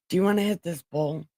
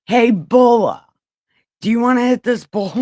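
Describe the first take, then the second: First: Said in the usual way. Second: Loud, fast call. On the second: Real, not acted. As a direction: call out across the room. Calling out to a viewer.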